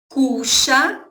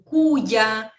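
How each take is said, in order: First: The middle consonant has the Rioplatense Spanish sound. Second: The middle consonant has a non-Rioplatense Spanish sound. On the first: "eu pronuncio cuxa, gente, porque meu espanhol, ele é rioplatense" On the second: "tem várias outras pronúncias, como cuya"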